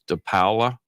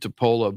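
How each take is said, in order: First: The name is said with an Italian pronunciation. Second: The name is said with an American pronunciation. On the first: "the Italian real way is De Paola" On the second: "I pronounce it DePola"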